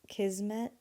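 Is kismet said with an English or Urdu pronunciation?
English. It is said with an English pronunciation. The speaker calls it wrong. "It just sounds not right"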